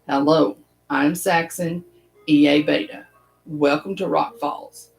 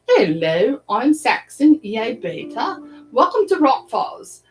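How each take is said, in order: First: It is spoken in the speaker's ordinary accent. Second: It is spoken in a put-on English accent. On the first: The speaker calls it wrong. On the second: The speaker calls it right.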